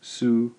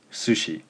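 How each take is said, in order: First: Su-shi split with a pause; higher SU, then a separate SHI; syllable by syllable. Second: Said in the usual way. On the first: Shown as a demonstration. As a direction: break Su-shi into two clear beats. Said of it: "Two syllables". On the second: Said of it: "The word I just gave you".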